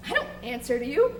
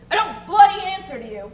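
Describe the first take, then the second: First: Said in the usual way. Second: Louder with bloody punched hard; angry defiance. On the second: Acted. Jenkins to the bosun, a louder angry refusal. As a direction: hit bloody hard and raise the voice.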